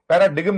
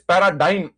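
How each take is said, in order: First: The g is sounded in the middle. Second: The g is silent in the middle. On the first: The speaker calls it wrong. "पैराडिगम नहीं है" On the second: The speaker calls it right. "ये जी silent है। It is पैराडाइम।"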